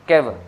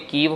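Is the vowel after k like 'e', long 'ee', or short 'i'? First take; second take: e; long ee. First: The vowel after k is an 'e' sound. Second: The vowel after k is a long 'ee'. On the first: The speaker calls it right. "Gurmukhi वाला which will be the most शुद्ध" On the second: The speaker calls it wrong. "वो तो बिल्कुल ही गलत है"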